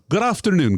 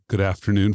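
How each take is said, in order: First: It is said in a posh British accent. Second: It is said in an American accent. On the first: "Had I gone with the Queen's English" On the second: "That would be American English"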